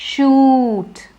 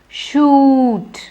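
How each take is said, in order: The two takes are said the same way.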